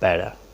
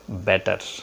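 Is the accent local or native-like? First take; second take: native-like; local. First: Said with a native-speaker accent. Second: Said with a local non-native accent. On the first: "native speaker says better" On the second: "we pronounce better"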